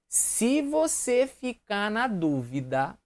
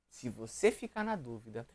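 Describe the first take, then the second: First: Se você ficar na dúvida drawn out slowly and higher; slow emphasis. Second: Se você ficar na dúvida repeated lower and softer. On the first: Teacher stressing the rule slowly to students. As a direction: stretch each word of se você ficar na dúvida. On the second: Teacher quietly repeating the rule to students. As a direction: drop se você ficar na dúvida to a soft aside. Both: Shown as a demonstration.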